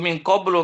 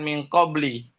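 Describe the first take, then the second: First: The last word ends with a u vowel. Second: The last word ends with an i vowel. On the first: The speaker calls it right. "min qablu dengan dhamma" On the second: The speaker calls it wrong. "bukan kasrah"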